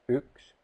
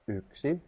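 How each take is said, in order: First: The word is shortened, dropping the final vowel. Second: The word is said in full, two syllables. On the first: This is an everyday spoken language form. "The purple and the green are in spoken language" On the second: This is the standard written language form. "The red one is in standard language"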